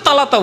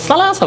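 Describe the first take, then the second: First: The word's consonants are said as plain t sounds. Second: The word's consonants are said as s-like sounds. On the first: This is how uneducated people speak. The speaker calls it wrong. "তালাতো আলাপ তো জাহেল মূর্খরা বলে। একজন আলেম কি করে তালাতা বলবে?" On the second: This is how a scholar should say it. The speaker calls it right. "সার যে উচ্চারণ আছে মাখরাজ সেইভাবে বলবে।"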